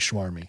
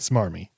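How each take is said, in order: First: The word begins with an SH sound. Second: The word begins with a plain S sound. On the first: The speaker calls it wrong. "You say schwarmy" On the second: The speaker calls it right. "You mean smarmy"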